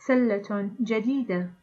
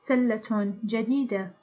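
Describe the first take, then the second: Both takes have the same delivery.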